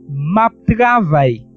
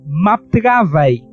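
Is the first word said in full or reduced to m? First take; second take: reduced; reduced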